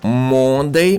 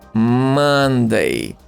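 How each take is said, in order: First: The first vowel is an 'o' sound. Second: The first vowel is an 'uh' sound. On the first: The speaker calls it wrong. "it doesn't sound like O" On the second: The speaker calls it right. "It sounds like a Monday"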